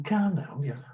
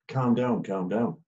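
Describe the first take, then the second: First: High, sing-song mocking repeat of calm down; mocking echo. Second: Said in the usual way. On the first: Footballer mocking the referee's calm down, high and sneering. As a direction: throw the words back at him, higher. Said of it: "And he's gone". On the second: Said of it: "I've just said".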